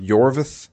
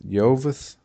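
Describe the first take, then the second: First: Yorvith said with a clear R, as YOR-vith; Yorvith, the R sounded, rising as it is repeated; corrected name. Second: Yovith said without the R, as YO-vith; unsure guess Yovith, no R sound, rising; mispronounced name. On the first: Repeating the co-host's correction, Yorvith with the R. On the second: Unsure first guess at the elf's name, without the R. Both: Shown as a demonstration. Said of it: "There's an R in there".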